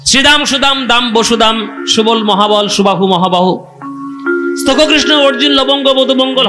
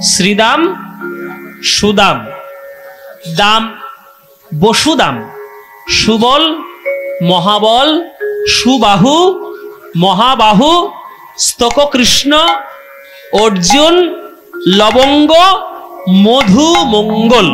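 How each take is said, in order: First: The names are rattled off very fast without pauses. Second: The names are said slowly with pauses between them.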